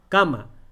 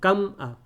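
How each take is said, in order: First: The word flows smoothly with no break. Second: There is a break after cam before a. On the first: The speaker calls it right. "Decimos cama" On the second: The speaker calls it wrong. "Tampoco decimos cam a. Así no hablamos"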